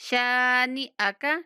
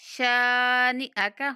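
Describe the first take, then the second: The two takes are said the same way.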